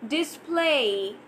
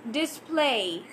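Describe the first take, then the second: No difference in how they are said.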